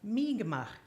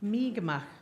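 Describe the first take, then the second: First: It is said as 'Mi'kmaq'. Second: It is said as 'Mi'kmaq'.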